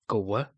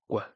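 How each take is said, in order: First: The k and w are heard as two sounds. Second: The k is one sound with rounded lips. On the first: The speaker calls it wrong. "it shouldn't be uh, two sounds, so it shouldn't be Kawa" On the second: The speaker calls it right. "It should be one sound, which is a K with rounded lips"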